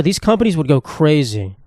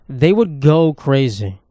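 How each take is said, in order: First: Said in the usual way. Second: "They would go crazy" said slowly, each word weighed; slow emphatic repeat. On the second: Shown as a demonstration. Ranting about utility companies, slow emphatic repeat.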